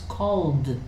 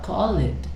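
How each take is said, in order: First: The ending is a plain d sound. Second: The ending is said as an extra syllable. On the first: The speaker calls it right. "it's called" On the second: The speaker calls it wrong. "it's not call it"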